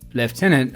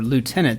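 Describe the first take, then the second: First: The word is said the British way. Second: The word is said the American way.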